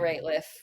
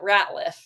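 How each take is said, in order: First: The first syllable does not sound like 'rat'. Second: The first syllable sounds like 'rat'. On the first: The speaker calls it right. "she said it right" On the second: The speaker calls it wrong. "it's not Ratliff. It's not a rat"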